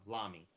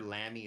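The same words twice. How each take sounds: First: Lamy with an open "ah" in the first syllable; Lamy rhyming with mommy; American pronunciation. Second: Lamy with the short "a" of lamb; Lamy rhyming with clammy; alternative pronunciation. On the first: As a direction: say Lamy as LAH-mee. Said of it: "in America we pronounce it". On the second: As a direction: say Lamy as LAM-ee. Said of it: "I've heard Lamy as well". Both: Shown as a demonstration.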